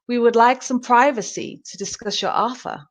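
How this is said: It is spoken in an American accent. "American English"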